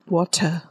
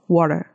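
First: It has a British accent with a crisp T. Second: It has an American accent with a soft T.

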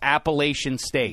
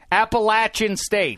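First: The third syllable does not sound like 'latch'. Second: The third syllable sounds like 'latch'. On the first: The speaker calls it wrong. "you're still saying it wrong" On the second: The speaker calls it right.

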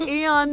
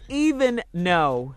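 First: It is squeezed into two clipped syllables. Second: Both words are said fully and separately. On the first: The speaker calls it wrong. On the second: The speaker calls it right. "The correct phrase is even no"

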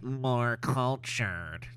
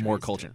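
First: It is said in a put-on character voice. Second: It is said in a plain, natural voice. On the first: The speaker calls it right. "we're going to be doing that voice all day" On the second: The speaker calls it wrong. "Not more cultured"

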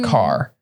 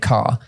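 First: It is said in a general American accent. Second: It is said in an English accent. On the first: "if you went generic American accent, they'd say car" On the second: "in England, we say car"

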